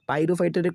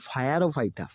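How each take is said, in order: First: The word begins with a 'pyro' sound. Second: The word begins with a 'fire' sound.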